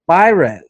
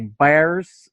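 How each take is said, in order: First: The name is said with its full intended pronunciation. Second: The name is said like the English word 'bears'. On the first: The speaker calls it right. "I said it right for the first time ever" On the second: The speaker calls it wrong. "I say bears. I say everything wrong"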